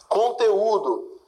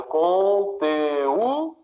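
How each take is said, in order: First: Said in the usual way. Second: "Conteúdo" stretched very slowly, the "ú" its own syllable; slow, rising syllable division of "Conteúdo". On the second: Shown as a demonstration. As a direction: separate the "e" and "ú" in "Conteúdo". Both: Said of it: "fazendo a divisão silábica".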